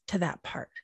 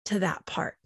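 First: Breathy whispered tag. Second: Much softer trailing phrase; hushed ending. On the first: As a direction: drop to a whisper. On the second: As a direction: let it fall away softly. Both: Real, not acted. Repeated soft closing phrase.

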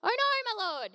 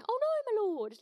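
First: High anguished cry; cried out. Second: High hammed-up cry of dismay; mock cry. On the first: A narrator's reading. Servant crying out to Elisha in dismay. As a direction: cry out in dismay over the lost axe. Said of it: "he cried out". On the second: Shown as a demonstration. Preacher demoing servant's cry, hammed-up dismay. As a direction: ham up the lost axe cry. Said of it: "I don't know how else to say that".

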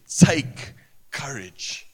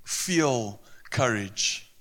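First: Slow, leaning on "Take courage"; stress on Take. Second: Said in the usual way. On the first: Shown as a demonstration. Preacher contrasting feel with take, slow stress. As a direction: draw out "Take courage" as a command. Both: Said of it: "courage is an action".

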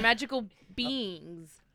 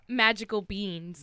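First: "beings" said slowly with a clear ng; corrected pronunciation. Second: "beans" drawn out slowly as one syllable; accented "beings". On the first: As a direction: correct it to "beings", drawing the word out. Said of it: "No, I'm sorry, magical beings". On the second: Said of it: "my accent". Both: Real, not acted.

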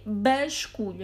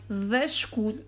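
First: "basculho" with an initial B sound; the B version, "basculho", drawn out and deliberate; pronounced with B. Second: "vasculho" with an initial V sound; the V version, "vasculho", drawn out; pronounced with V. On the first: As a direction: say "basculho" slowly, hitting the opening B. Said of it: "eu não troco os Vs pelos Bs". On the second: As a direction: say "vasculho" slowly, starting on a clear V. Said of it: "Eu não disse mal". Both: Shown as a demonstration.

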